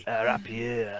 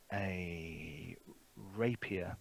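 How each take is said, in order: First: "rapier" said French-style, ending in "-ay"; French pronunciation. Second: Said in the usual way. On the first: Acted. Game master echoing player's correction, French pronunciation of "rapier". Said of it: "he would refer to it as a rapier".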